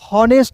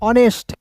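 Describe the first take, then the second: First: The word begins with an audible h sound. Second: The word begins directly with a vowel sound. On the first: The speaker calls it wrong. "हॉनेस्ट नहीं" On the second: The speaker calls it right. "इसका उच्चारण औ के रूप में करते हैं"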